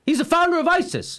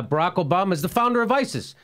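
First: High-pitched, emphatic imitation; mock insistence. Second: Said in the usual way. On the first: Host retelling a candidate's wild claim, mock insistence. Retold claim, escalating repeats.

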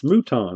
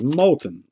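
First: "Mouton" said moo-TAWN, no L; corrected Mouton. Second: "Molten" said like molten lava cake; anglicized Molten. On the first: Friend correcting the name, "Mouton" as moo-tawn. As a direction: stretch "Mouton" as moo-tawn, French-style ending. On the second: Misreading the name to his friend, plain English "Molten". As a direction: stress the first syllable of "Molten", with an L heard. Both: Retold or imitated. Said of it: "No, it's Mouton".

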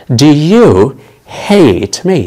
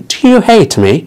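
First: Slow model sentence. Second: Said in the usual way. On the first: Shown as a demonstration. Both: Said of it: "هل تكرهني؟".

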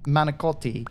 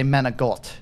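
First: "Manicotti" with a hard c and t and a final ee; "Manicotti" as man-ih-KOT-ee; standard pronunciation. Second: "Menegot" with a g for the c and no final i; East Coast Italian-American pronunciation. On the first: Shown as a demonstration. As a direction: say "Manicotti" in full, final i sounded. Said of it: "instead of saying". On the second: Retold or imitated. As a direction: clip the ending: "Menegot", man-ah-GOT. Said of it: "she would drop the I at the end and say it with a G".

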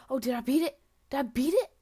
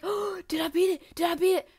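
First: Loud hopeful question, rising at the end; excited. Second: High, loud, overexcited self-imitation; mock excitement. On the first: Real, not acted. Player thinks a record fell, excited asking. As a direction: blurt it out with rising hope. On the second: Player mocks their own false hope, hammed-up excitement. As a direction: imitate yourself getting carried away. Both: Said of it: "I got so excited".

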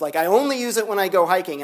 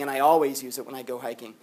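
First: Only lifted and leaned on; stress on only. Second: Always leaned on, lower and softer; stress on always. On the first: Student explaining his habit, stress on only. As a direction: hit only in I only use it. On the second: Student explaining his habit, stress on always. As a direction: press on always in I always use it. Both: Shown as a demonstration. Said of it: "contrasting only and always".

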